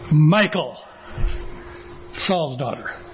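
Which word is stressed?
Michal. The stress is on Michal.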